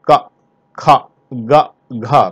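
Each syllable ends in an open 'aa' vowel. This is the standard pronunciation. The speaker calls it right. "ये का है, का खा गा घा"

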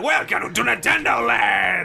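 It is said in a Wario voice.

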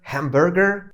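It is said in an American accent. "Typowy Amerykanin powie coś w stylu hamburger"

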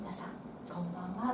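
It is said with a pause after 皆さん.

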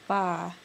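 The vowel is a flat single 'ah' sound. "with an I want to say ah"

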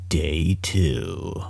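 It is said in a deep, dramatic movie-trailer voice. "Let me say it again in my awesome movie voice"

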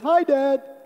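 The voice is high and squeaky. The speaker is a little child. "that squeaky little voice"

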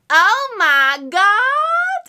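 It is said in an imitated character voice.

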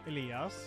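The name is said with a Swedish pronunciation. "how you would say it in Swedish"

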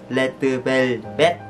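The name is said with Korean-style sounds. The speaker calls it right. "Người ta sẽ đọc là Letter Velvet"

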